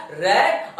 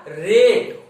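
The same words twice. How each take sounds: First: रेड pronounced "rat", the vowel of "cat"; short-A "rat". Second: रेड pronounced "rate", the vowel of "day"; long-A "rate". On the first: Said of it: "अगर R ए T रहेगा". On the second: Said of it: "R ए T ई रहेगा". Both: Shown as a demonstration.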